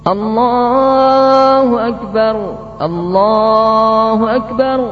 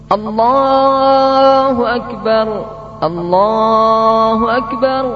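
The two takes are said the same way.

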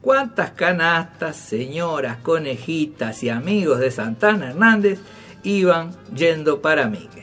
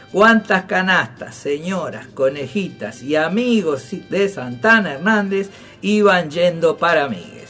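Both takes have the same delivery.

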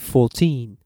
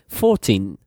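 First: The stress is on the second syllable. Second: The stress is on the first syllable. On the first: The speaker calls it right. "the stress falls on the second syllable, on the final syllable" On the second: The speaker calls it wrong. "You don't say 14"

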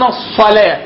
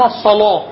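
First: The L is light and thin. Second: The L is heavy and thick. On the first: "كده باللام المرققة" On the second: "دي قراءة تغليظ"

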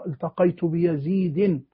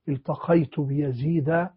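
First: The name ends with nunation, -in. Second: The name ends with a short a, no nunation. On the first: The speaker calls it wrong. "هذا غير وارد" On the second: The speaker calls it right. "هذا هو النطق السليم"

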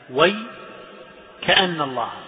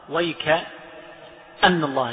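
First: There is a break right after 'way'. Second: There is a break right after 'wayk'. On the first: "ووقف الكسائي على وي" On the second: "وقف على الكاف"

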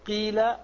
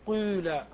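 First: The first vowel is a pure i sound. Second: The first vowel is between i and u. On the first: "ليست قيل" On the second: "فتجتمع عندك الضمة والكسرة"

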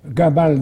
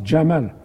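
First: The name begins with a hard g sound. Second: The name begins with a j sound. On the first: This is the Egyptian pronunciation. "la prononciation égyptienne, au lieu du j, ils mettent g" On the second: This is how Arabs generally say it. "tous les Arabes disent Jamal"

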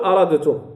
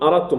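First: The d sound is pronounced separately before t. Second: The d sound merges fully into the t. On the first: The speaker calls it wrong. "غلط أن أقول أردتم" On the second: The speaker calls it right. "قل أردتم"

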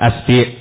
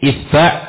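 First: The first vowel is a, the second i. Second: The first vowel is i, the second a.

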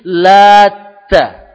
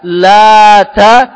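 First: The t sound is doubled and held longer. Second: The t sound is short, not doubled. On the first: It names a man who mixed barley mash. "yang kedua dibaca tasjid" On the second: This is the reading found in the Quran. "tidak bertasjid"

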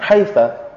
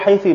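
First: The word ends in the vowel a. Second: The word ends in the vowel i. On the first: "membinakannya dengan fathah" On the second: "membinakannya dengan kasrah"

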